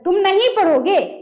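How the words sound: It is said in an angry, forceful tone. "मेरा भी mind दिमाग गर्मा गया"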